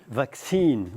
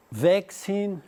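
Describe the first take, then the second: First: Vaccine stressed on the last syllable, "vacCINE"; American vaccine. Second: Vaccine stressed on the first syllable, "VACcine"; British vaccine. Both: Shown as a demonstration. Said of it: "acento da palavra".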